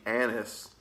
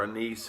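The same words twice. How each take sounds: First: "anise" said AN-iss, stress up front; first pronunciation of anise. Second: "anise" said uh-NEES, stress at the end; alternative pronunciation of anise. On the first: Reviewer guessing at the pipe tobacco topping, "anise" as AN-iss. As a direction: say "anise" with the first syllable stressed, short ending. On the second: Reviewer offering viewers the other way, "anise" as uh-NEES. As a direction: say "anise" with a long ee in the stressed last syllable. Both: Shown as a demonstration. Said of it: "however you wanna pronounce it".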